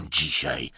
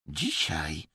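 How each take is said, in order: First: Low, falling, dismissive word; scornful snort. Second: Soft, eerie, otherworldly echo; possessed voice. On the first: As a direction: scoff at it in a low voice. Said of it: "prychnął Emerson". (pogardliwe prychnięcie, nisko) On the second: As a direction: speak as if in a trance. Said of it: "głosem nie swoim, nawiedzonym". (nawiedzony, nieswój głos) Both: A narrator's reading.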